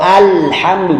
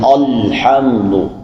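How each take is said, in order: First: The opening sound is light and thin. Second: The opening sound is heavy and thick. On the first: The speaker calls it right. "Atau alhamdu" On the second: The speaker calls it wrong. "jangan alhamdu"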